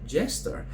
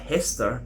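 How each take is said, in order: First: The name starts with an English J sound. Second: The name starts with a breathy H sound. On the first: The brewery uses the English pronunciation. "apparently they like the English pronunciations" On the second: This is the expected Spanish pronunciation. "I would have thought it would have been pronounced um"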